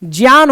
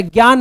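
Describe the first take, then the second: First: ज्ञान said as "jyan"; j plus y glide starting ज्ञान; correct pronunciation. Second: ज्ञान said as "gyan"; hard g plus y starting ज्ञान; wrong pronunciation demo. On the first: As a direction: say ज्ञान with "jya". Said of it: "ज्ञान होता है". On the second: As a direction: say ज्ञान with "gya". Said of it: "ज्ञान नहीं होता". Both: Shown as a demonstration.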